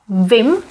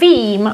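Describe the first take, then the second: First: The vowel i is short. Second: The vowel i is long. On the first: This is the common spoken form. "we simply make vim, the I becomes short" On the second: This is the standard form. "Instead of vím"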